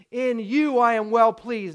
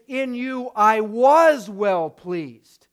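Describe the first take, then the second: First: Said in the usual way. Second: "was" drawn out and loud; slow down and punch the word "was"; slow quote with heavy emphasis on "was"; stress on WAS. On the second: Shown as a demonstration. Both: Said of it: "it's important to point out".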